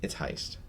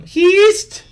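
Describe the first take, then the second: First: "heist" whispered, with the eye vowel; "It's heist" breathed soft as "hyest"; correct pronunciation. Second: "Heist?" squeaked very high and loud as "heest"; "Heist?" as a shrill mock "heest" question; mocking mispronunciation. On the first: Shown as a demonstration. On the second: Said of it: "I'm, I'm dumb".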